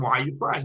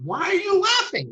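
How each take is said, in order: First: Said in the usual way. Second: High-pitched retold astonishment; acted-out baffled outcry on a high pitch; incredulous question. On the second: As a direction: ask in disbelief, pitch leaping right up. Retold shocked question to Rabbi Akiva.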